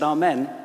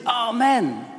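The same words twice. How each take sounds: First: It is said a bit louder. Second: It is screamed very loudly.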